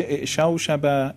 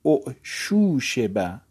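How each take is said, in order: First: اعشوشبه said i'shawshaba, with fatha vowels; اعشوشبه read as the active past, a-sounds throughout; active past form. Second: اعشوشبه said u'shushiba, slow, with u-u-i vowels; اعشوشبه as passive u'shushiba, drawn out; passive form. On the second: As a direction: stretch out اعشوشبه slowly as the passive, u then i. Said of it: "اما مجهول". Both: Shown as a demonstration.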